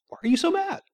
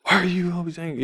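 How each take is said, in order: First: High, soft imitation of mom; light, hushed, innocent question; very simple, calm. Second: A hint of aggression, rattled off fast; mock aggressive. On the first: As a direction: ask gently, without any aggression. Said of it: "very simply". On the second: Shown as a demonstration. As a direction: toss off a hurried accusing question. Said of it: "not in an aggressive manner at all".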